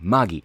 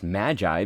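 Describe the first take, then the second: First: The name is said the Japanese way. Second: The name is said the American way. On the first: "it was in Japanese and it was like Magi" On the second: "that's how we usually say that in America"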